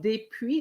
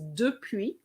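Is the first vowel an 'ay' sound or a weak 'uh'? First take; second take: ay sound; weak uh. First: The first vowel is a clear 'ay' sound. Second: The first vowel is a weak 'uh' sound. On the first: The speaker calls it wrong. "There's no accent on the first E, so you can't say des" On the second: The speaker calls it right. "it's depuis"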